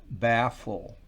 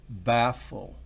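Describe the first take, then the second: Both takes have the same delivery.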